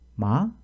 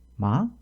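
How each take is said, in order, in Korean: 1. 끝에서 음이 빠르게 올라갑니다. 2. 끝에서 음이 빠르게 올라갑니다.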